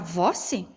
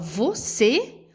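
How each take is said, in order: First: The stress is on the first syllable. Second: The stress is on the second syllable. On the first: The speaker calls it wrong. "nessa palavra não iria combinar" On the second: The speaker calls it right. "a fala fica mais forte na sílaba aqui do C"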